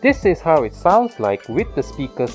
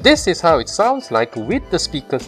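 First: The voice sounds muffled behind the mask. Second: The voice sounds clear through the speaker. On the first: "with the speakers turned up" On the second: "with the speakers turned on"

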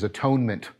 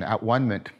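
First: The word is said as ordinary atonement. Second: The word is split into at, one, ment. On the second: It means being made one with ultimate reality. "I'm using that pronunciation"

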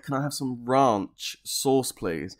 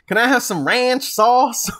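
First: It is said in a British accent. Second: It is said in an American accent.

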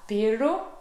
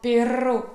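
First: The middle consonant is a plain L sound. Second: The middle consonant is a rolled R sound. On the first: The speaker calls it wrong. "quand j'essayais de dire ce mot qui veut dire chien, je disais pelo" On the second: The speaker calls it right. "aujourd'hui, je sais le prononcer"

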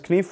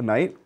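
First: The word ends with an f sound. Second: The word ends with a t sound.

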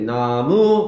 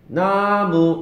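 First: The stress is on the second syllable. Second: The stress is on the first syllable. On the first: The speaker calls it wrong. "이렇게 안 한단 말이야" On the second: The speaker calls it right. "나무 이렇게 얘기하지"

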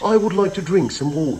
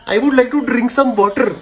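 First: It is said in a British accent. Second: It is said in an Indian accent.

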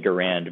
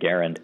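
First: The stress is on the second syllable. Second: The stress is on the first syllable. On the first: This is how it looks from the spelling. "People look at it on paper and say Garand" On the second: This is how the family said it. "with the emphasis on the first syllable"

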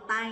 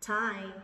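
First: The t has no puff of air. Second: The t is released with a strong puff of air. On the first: The speaker calls it wrong. "chứ đừng đọc tay nha" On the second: The speaker calls it right. "bật chữ T này"

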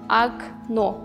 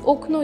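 First: The first vowel sounds like a. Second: The first vowel sounds like full o. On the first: This is how the word is actually spoken. "Демаги у нака талаффуз қиламыз" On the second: This is how the word is spelled. "окно ёзыляды"

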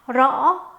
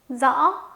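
First: It is said in a southern Vietnamese accent. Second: It is said in a northern Vietnamese accent. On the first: "남부식 발음 시작" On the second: "북부 중심 발음 방식은 여기까지고요"

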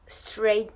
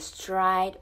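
First: The vowel sounds like 'ay' in 'say'. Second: The vowel sounds like 'eye' in 'ride'.

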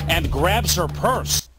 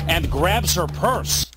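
Both takes have the same delivery.

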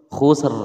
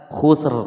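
No difference in how they are said.

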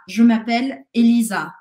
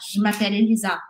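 First: It is said slowly with every sound clear. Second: It is said quickly with sounds run together. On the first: A respectful, more formal introduction. "Eu falo, je m'appelle Elisa" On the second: A casual introduction among friends. "eu posso falar isso rapidamente, o som vai mudar"

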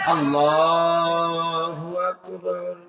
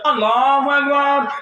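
First: The phrase is said slowly and carefully. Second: The phrase is said very fast and rushed. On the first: This is the normal prayer, recited unhurriedly. "ধীরে ধীরে ... কত সুন্দর করে পড়ছে" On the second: This is the special night prayer, rushed through. "হুজুরের স্পিড বেড়ে গেছে ... গাড়ি 120-এ টানছে"

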